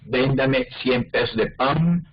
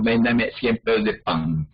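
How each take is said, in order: First: "pan" ending on a plain alveolar n; final n in pan. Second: "pan" ending in a velar ng, paŋ; final velar n in pan. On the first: Teacher demonstrating the usual alveolar n in pan. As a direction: say "pan" with the tongue tip closing the n. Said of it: "pronunciarla como N". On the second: Teacher contrasting the velar n in pan for students. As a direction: close "pan" with the back of the tongue, paŋ. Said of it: "Las dos más comunes". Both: Shown as a demonstration.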